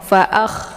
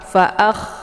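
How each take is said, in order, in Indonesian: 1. Bunyi kh dialirkan dengan hembusan berdesis. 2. Bunyi kh dialirkan dengan hembusan berdesis.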